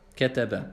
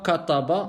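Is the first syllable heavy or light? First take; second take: light; heavy. First: The first syllable sounds light and thin. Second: The first syllable sounds heavy and emphatic. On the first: The speaker calls it right. "on dit kataba" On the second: The speaker calls it wrong. "on ne dit pas kataba"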